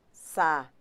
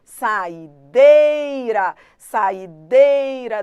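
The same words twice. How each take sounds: First: Sa-i-deira broken into sa, i, deira; syllable by syllable. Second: Saideira, saideira drawn out very slowly and loud, dei stressed; sounding out loud. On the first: Teacher breaking saideira into syllables to show stress. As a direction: split Sa-i-deira into its syllables, one beat each. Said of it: "Pronuncie pra ver quem é que manda". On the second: Teacher showing how her son sounds out saideira, slow and loud. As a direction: chant saideira slowly and loudly, leaning on dei. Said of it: "Tem que ficar fazendo desse jeito aqui". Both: Shown as a demonstration.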